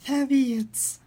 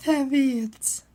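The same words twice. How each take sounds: The two takes are said the same way.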